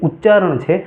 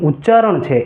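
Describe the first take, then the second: No difference in how they are said.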